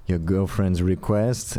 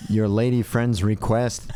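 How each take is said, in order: First: Put-on slow light Nigerian accent; a hint of a Nigerian accent, drawn out. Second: Put-on slow, neutral mid-Atlantic accent. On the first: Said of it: "I like how your Nigerian accent is". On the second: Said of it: "he said in a mid-Atlantic kind of non-regional dialect".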